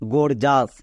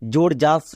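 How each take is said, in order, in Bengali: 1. শব্দটি hard 'g' ধ্বনি দিয়ে শুরু। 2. শব্দটি 'j' ধ্বনি দিয়ে শুরু। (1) "এর অ্যাকচুয়ালি উচ্চারণ হবে গোর জাস" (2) "অনেকে আছে এর বানান ভুল করে, যেমন উচ্চারণ করে জোর জাস"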